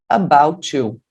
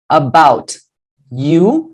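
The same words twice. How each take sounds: First: The t and y merge into ch. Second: The t and y are said separately.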